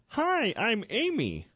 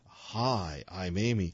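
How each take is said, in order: First: It is said in a plain voice. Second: It is said in a sexy, sultry voice.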